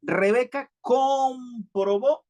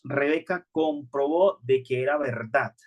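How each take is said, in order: First: Rebeca comprobó read slowly and higher, leaning on comprobó with a rise; slow emphatic reading. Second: Said in the usual way. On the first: Shown as a demonstration. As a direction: draw out comprobó so every syllable lands. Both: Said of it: "hay que leerlo muy detenidamente".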